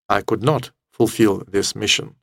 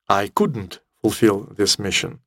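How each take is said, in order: First: "Could not" is said as two full words. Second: "Could not" is shortened to "couldn't". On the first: The speaker sounds serious and responsible. "скажет ответственный солдат" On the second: The speaker sounds casual and careless. "скажет безответственная девушка"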